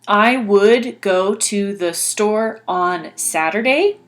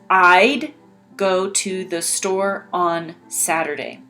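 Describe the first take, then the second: First: Would is said in full as a separate word. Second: Would is shortened and joined onto I. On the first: "you used I would" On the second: "this one says I'd"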